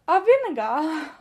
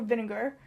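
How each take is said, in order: First: Louder, drawn-out mock British "vinegar"; imitated British accent. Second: Said in the usual way. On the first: Colleagues echoing her word in a mock British accent. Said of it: "they'll go like". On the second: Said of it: "speaking a more American accent".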